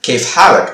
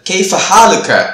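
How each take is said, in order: First: The last word ends with a consonant. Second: The last word ends with an extra vowel. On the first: This is the everyday spoken style. "பேச்சு வழக்குல வந்து கேஃப் ஹாலக் அப்படிதான் வச்சிருப்பாங்க" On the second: This is the formal written style. "எழுத்து வழக்கு வந்து கேஃப் ஹாலுக்க அப்படின்னு சொல்லுவாங்க"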